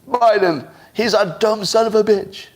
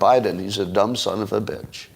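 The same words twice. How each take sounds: First: It sounds screechy, pleading and out of control. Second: It sounds calm, quiet and matter-of-fact. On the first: The speaker seems weak and desperate. The speaker calls it wrong. "That would look out of control, a little screechy, a little, a little pleading" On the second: The insult slips by as if it were ordinary. The speaker calls it right. "it's more matter-of-fact"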